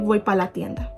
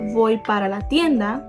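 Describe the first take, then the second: First: The word para is shortened to pa. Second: The word para is said in full. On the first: "So you see how we shorten the sentence?" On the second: "you could have"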